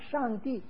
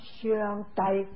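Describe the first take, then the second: First: The word is pronounced in Mandarin. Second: The word is pronounced in Cantonese. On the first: "普通话是上帝" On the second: "广东话是相呆"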